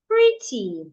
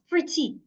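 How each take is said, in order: First: The stress is on the first syllable. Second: The stress is on the second syllable. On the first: The speaker calls it right. "I will say the first part, pre, louder, longer, clearer" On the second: The speaker calls it wrong. "not pretty"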